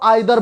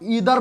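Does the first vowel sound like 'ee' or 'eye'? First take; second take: eye; ee. First: The first vowel sounds like 'eye'. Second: The first vowel sounds like 'ee'. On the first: "और आइदर भी पढ़ते हो" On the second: "जिसको आप ईदर भी पढ़ते हो"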